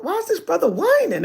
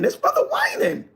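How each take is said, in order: First: Said in the usual way. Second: High whining impression of the brother; mock him in a high whine; whiny mock voice.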